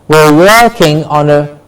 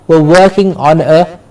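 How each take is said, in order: Both takes have the same delivery.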